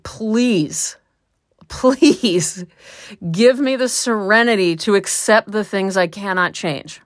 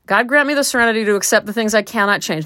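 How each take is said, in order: First: Pleading prayer. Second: Quick recitation. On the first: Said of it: "or just, like". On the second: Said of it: "I'm just gonna repeat that". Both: Shown as a demonstration.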